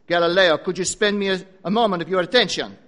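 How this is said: It is spoken in a put-on foreign accent. "Or probably he said it like this. Maybe with better accent"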